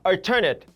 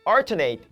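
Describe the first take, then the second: First: The stress is not on the first syllable. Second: The stress is on the first syllable. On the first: It is used as an adjective. "형용사로" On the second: It is used as a verb. "강세가 앞에 오기는 합니다"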